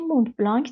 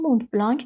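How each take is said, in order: First: It is said with an English pronunciation. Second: It is said with an English pronunciation.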